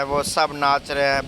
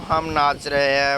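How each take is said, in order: First: सब lightly stressed as the drill goes on; teacher stressing सब. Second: हम lightly stressed as a teacher conjugates; teacher stressing हम. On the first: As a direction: lean on वो सब to set it apart. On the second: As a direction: lean on हम like a grammar drill. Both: Acted. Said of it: "grammar की teacher".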